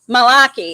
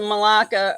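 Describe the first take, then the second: First: The word ends with an 'ee' sound. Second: The word ends with an 'ah' sound. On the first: This is the form female speakers use. The speaker calls it right. "I guess I'm supposed to be saying malaki" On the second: This is the form male speakers use. The speaker calls it wrong. "they said I'm saying it in the male terms"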